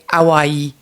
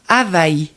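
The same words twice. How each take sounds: First: It is said with a French pronunciation. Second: It is said the Hawaiian way, with a glottal stop. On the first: "En français, on dirait Hawaï" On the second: "comme qu'elle s'appelle pour le vrai, on va dire Hawaï"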